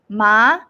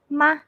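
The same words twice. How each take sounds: First: The pitch rises upward. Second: The syllable is very short and light. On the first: "the second tone going up" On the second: "Very short and very light"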